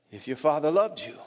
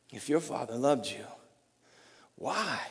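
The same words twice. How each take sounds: First: "If your father loved you" aloud, pressing hard on "loved"; stress on loved. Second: Soft whispered "If your father loved you" with low pitch; whispered taunt. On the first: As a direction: lean on "loved" as an accusation. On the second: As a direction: breathe it like a tempter. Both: Retold or imitated. Taunt repeated, then louder.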